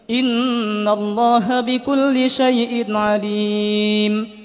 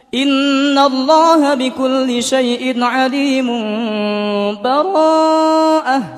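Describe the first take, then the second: First: It stops fully with a breath before the next word. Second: It runs straight into the next word without stopping. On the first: The two surahs are fully separated. "kita berhenti. ... Berhenti, mengambil nafas, baru bara'atum minallah" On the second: The two surahs are joined together. "Dan yang ketiga disambung"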